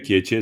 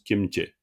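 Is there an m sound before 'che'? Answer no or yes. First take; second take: no; yes. First: It is said without an m sound before che. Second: It is said with an m sound before che. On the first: This way is acceptable but less usual. "Tu dirais kieche, ça va" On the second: This is the usual pronunciation. "en général ça se prononce kemche"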